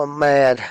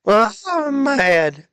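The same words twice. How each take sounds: First: Said in the usual way. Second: Higher and slow, stretched-out whiny "mad"; mock whine. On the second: Gamer repeating his complaint in a higher, slower whine. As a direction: draw it out high like a mock complaint.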